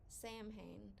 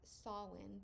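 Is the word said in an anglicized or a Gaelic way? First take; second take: anglicized; Gaelic. First: The word is said with an anglicized pronunciation. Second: The word is said with a Gaelic pronunciation. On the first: The speaker calls it wrong. "I've seen some people pronounce it Samhain" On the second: The speaker calls it right. "it is pronounced Samhain because it is a Celtic Gaelic word"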